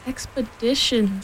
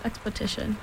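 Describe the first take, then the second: First: "Expedition" said slowly with a clear d; corrected pronunciation. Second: "expedition" with a t in place of the d: "expotition"; mispronounced expedition. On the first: Robin corrects Pooh's word. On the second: Pooh's mispronunciation, corrected next. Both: A narrator's reading.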